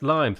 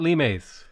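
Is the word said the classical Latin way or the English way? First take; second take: English; classical Latin. First: The word is given an English-style pronunciation. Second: The word is given a classical Latin-style pronunciation. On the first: The speaker calls it right. "Limes in English is pronounced limes" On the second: The speaker calls it wrong. "not limes"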